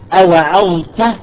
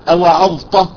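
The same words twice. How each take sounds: First: The final t sound is plain, not emphatic. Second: The final t sound becomes an emphatic ṭ. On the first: The speaker calls it right. "مثلا تقول أوعظت" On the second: The speaker calls it wrong. "بعضهم يقول أوعظت، أوعظت، تخرج طاء"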